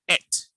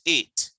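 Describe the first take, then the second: First: The word is said like 'et'. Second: The word is said like 'eight'. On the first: The speaker calls it right. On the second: The speaker calls it wrong. "not eight"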